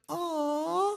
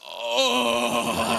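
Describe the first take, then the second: First: It is said in a soft, smooth voice. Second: It is said in a coarse, rough voice.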